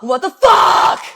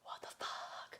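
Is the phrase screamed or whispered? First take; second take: screamed; whispered. First: The phrase is screamed loudly. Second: The phrase is whispered quietly.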